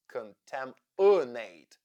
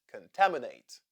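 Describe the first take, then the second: First: Slow, loud 'contaminate' with the third-syllable 'uh' drawn out; schwa highlighted. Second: Said in the usual way. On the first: Shown as a demonstration. Teacher spotlighting a vowel for learners, schwa highlighted. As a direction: stretch and lean on the schwa in 'contaminate'. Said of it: "third syllable has the schwa sound". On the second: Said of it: "The second is stressed".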